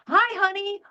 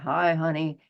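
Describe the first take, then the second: First: The greeting sounds warm and upbeat. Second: The greeting sounds cool and downbeat. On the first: The speaker is in a good mood that day. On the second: The speaker is in a bad mood that day.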